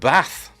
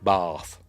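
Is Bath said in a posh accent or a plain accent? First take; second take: plain; posh. First: Bath is said in a plain, ordinary accent. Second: Bath is said in a posh accent.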